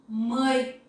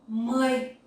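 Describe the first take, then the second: The two takes are said the same way.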